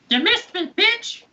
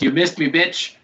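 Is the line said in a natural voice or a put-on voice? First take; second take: put-on; natural. First: It is said in a put-on creature voice. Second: It is said in a plain narrating voice. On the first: "But it sounds like this" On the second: "it says"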